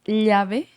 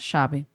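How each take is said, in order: First: It is said with a Bolivian pronunciation. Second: It is said with an Argentine pronunciation. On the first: "Na Bolívia é llave" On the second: "na Argentina se pronuncia chave"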